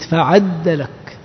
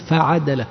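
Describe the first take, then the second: First: فعدلك with doubled dal, slow, fa-ʕad-dalak; فعدلك with shadda on the dal; doubled reading. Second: فعدلك with light unstressed dal, fa-ʕa-da-lak; فعدلك without doubling the dal; light reading. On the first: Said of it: "بالتشديد". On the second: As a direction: say فعدلك with a single short dal. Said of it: "قرأوا هكذا بالتخفيف". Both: Shown as a demonstration.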